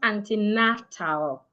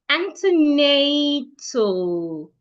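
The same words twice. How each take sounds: First: The last syllable has a full, open vowel. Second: The last syllable has a weak, reduced vowel. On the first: The speaker calls it wrong. "not antenatal" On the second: The speaker calls it right.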